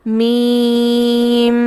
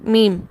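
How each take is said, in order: First: The final m is held with a nasal hum. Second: The final m ends without a held nasal hum. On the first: The speaker calls it wrong. "मीम को ऐसे नहीं पढ़ा जाता" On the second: The speaker calls it right. "Just word मीम"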